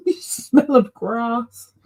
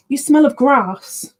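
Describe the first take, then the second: First: Said through a real laugh, slow. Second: Higher, slow playful remark to a pet; teasing the cat. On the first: Repeating to her cat that it smells of grass, laughing through it. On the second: Telling her cat its fur smells of grass, slow playful teasing. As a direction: tease your cat fondly, a bit louder. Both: Real, not acted.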